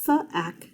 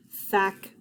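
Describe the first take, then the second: First: "th-ack" broken, higher start; segmented sounding out. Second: Said in the usual way. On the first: Shown as a demonstration. Teacher sounding out "thack" for students. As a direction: pull "th" apart from "ack". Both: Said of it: "T H says th".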